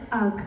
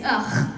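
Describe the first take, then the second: First: "ugh" misread with a hard g, like "ug"; mistaken pronunciation. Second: "ugh" as a throaty grunt of disgust, no hard g; supposed pronunciation. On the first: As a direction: say "ugh" literally, ending on hard g. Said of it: "But I said ugh". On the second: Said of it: "I was supposed to say ugh". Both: Shown as a demonstration.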